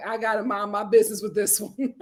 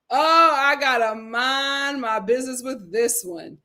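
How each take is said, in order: First: Said in the usual way. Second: Slow, stretched words with a playful lilt; drawn-out quip. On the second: Acted. Host repeats her own excuse to stay out of it, drawn out. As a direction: linger on each word for comic effect.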